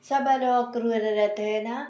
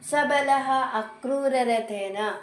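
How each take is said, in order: First: The two words are run together, joined. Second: The two words are said separately, unjoined.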